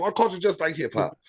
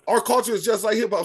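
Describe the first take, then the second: First: Said in the usual way. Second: Raised, higher voice to cut in; cutting in over the interruption, voice raised high; talking over. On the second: Real, not acted. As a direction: push the line over the other speaker, pitched up. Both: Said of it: "Sorry, I'm gonna cut you off".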